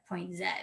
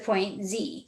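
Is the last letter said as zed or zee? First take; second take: zed; zee. First: The letter Z is said the Canadian way, zed. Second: The letter Z is said the American way, zee.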